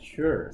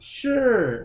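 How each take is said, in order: First: The word ends with a plain, light R sound. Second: The word ends with a heavy, exaggerated R sound. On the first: "something like this" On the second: "they have too much R sounds sometimes"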